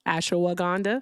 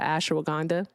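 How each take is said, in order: First: The word is pronounced in the standard way. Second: The word is pronounced in a deliberately distorted way. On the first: The speaker calls it right. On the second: The speaker calls it wrong.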